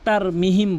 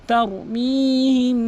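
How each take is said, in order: First: The vowel after m is short. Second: The vowel after m is drawn out long. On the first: The speaker calls it wrong. "অধিকাংশ লোক তার মিহিম বলে" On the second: The speaker calls it right. "তার মি টানতে হবে"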